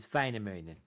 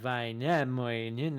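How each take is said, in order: First: The stress falls on the first syllable. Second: The stress falls on a later syllable. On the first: The speaker calls it right. "the accenting is always on the first syllable" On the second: The speaker calls it wrong. "it would not be like Väinämöinen or whatever"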